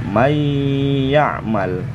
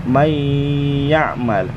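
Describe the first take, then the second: The two takes are said the same way.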